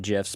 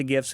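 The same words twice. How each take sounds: First: "gifs" pronounced like "jifs"; soft G on "gifs", as in gem. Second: "gifs" pronounced with a hard G, as in gift. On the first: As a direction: start "gifs" with a J sound. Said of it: "I've changed it to gifs". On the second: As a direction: start "gifs" like "give". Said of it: "I've always said gifs". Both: Shown as a demonstration.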